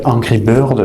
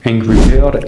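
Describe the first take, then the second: First: Angry Bird in a plain French accent; English words with a French r; own French accent. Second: Angry Bird in a mock American accent; imitated American English pronunciation; put-on American accent. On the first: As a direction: say it the French way, no American put-on. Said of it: "avec mon accent à moi". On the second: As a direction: say it like an American, r's softened. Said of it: "je vais pas prendre un accent". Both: Shown as a demonstration.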